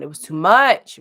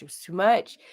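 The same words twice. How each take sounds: First: Louder, punched "it was too much"; emphatic complaint. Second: Said in the usual way. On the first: Real, not acted. Venting to viewers about the heat, emphatic. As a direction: lean hard into "too much".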